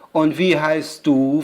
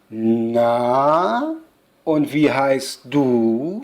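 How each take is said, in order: First: Slow, lightly voiced nosy question; curious witch. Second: Slow, drawn-out nosy question, rising at the end; curious witch. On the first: Witch asking the girl's name, mildly curious. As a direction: ask slowly with mild curiosity. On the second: Witch asking the girl's name, curious and drawn out. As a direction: stretch it out like a prying witch. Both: A narrator's reading. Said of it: "fragt die Hexe neugierig".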